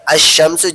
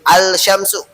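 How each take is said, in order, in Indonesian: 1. Bunyi l menyatu dengan bunyi sh setelahnya. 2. Bunyi l diucapkan dengan jelas sebelum sh. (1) "harusnya asyamsu" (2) "jadi al syamsu"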